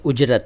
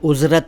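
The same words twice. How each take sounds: First: The middle consonant is a 'j' sound. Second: The middle consonant is a 'z' sound. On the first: The speaker calls it right. "ये उजरत है, यानी हिंदी में ज के नीचे नुक्ता नहीं है" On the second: The speaker calls it wrong. "इसको उजरत न कहें"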